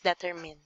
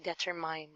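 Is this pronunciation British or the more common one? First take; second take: common; British. First: It is said the way most speakers say it. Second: It is said the way British speakers say it. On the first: "but most commonly it's" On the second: "some people from, you know, British countries, they usually say"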